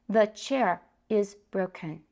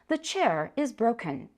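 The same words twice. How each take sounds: First: It is read with a Taiwanese accent. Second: It is read like a standard textbook recording.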